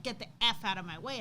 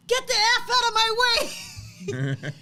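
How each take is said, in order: First: Said in the usual way. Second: High, loud, slow ready-to-fight yell; fierce shout. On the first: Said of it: "And he's like". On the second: Retold or imitated. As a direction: bark it like a boy ready to fight. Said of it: "that's when Lincoln said".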